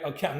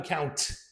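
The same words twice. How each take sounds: First: The final T has no puff of air. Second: The final T has a puff of air. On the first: "account, not account" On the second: "sometimes native speakers they may aspirate the T at the end"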